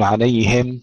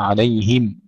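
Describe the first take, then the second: First: عليهم as "alayhem", open e; slack kasra. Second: عليهم as "alayhim", clear i; full kasra. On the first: Teacher showing what to avoid, "hem" ending in عليهم. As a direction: loosen the i of عليهم toward e. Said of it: "عليهم نحقق الكسر، لا نقول". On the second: Teacher modelling correction, clear "him" in عليهم. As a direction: sharpen the vowel of عليهم to a true i. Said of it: "وإنما". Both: Shown as a demonstration.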